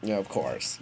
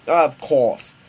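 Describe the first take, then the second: First: Said in the usual way. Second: Loud, higher British "of course"; bad British accent. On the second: Scientist agrees with his son, bad British accent. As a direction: redo it in hammy British. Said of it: "I'm doing a British accent".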